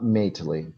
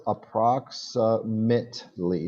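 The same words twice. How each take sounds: First: "mately" with a long ay, like mate-lee; "mately" with a full vowel as in mate; wrong pronunciation demo. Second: "approximately" very slowly, syllable by syllable; correct pronunciation demo. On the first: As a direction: show the mistake, "mately" rhyming with lately. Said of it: "not mately". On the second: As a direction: model "approximately" slowly with -mately said as mit-lee. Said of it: "pronouncing this wrong". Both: Shown as a demonstration.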